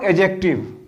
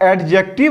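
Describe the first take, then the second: First: The d sound is silent. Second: The d sound is clearly pronounced. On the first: The speaker calls it right. "डी बच्चों silent रहेगा" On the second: The speaker calls it wrong. "मैं एडजेक्टिव नहीं कह रहा"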